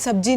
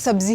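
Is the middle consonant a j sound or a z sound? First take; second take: j; z. First: The middle consonant is a j sound. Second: The middle consonant is a z sound. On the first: The speaker calls it wrong. "जे की जगह जीम का इस्तेमाल कर रहे हैं" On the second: The speaker calls it right. "आपको सब्जी ही बोलनी है"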